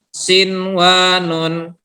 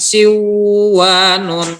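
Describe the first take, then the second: First: The n before w is pronounced clearly. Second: The n before w is merged away. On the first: The speaker calls it right. "jadi ini dibaca dengan jelas" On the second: The speaker calls it wrong. "bukan siwanun"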